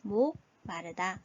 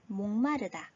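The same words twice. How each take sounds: First: 목마르다 said slowly and deliberately; slow repeat. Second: Said in the usual way. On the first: Shown as a demonstration. Teacher repeats the meaning slowly for students. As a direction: drag the word out gently. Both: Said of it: "어떤 의미죠".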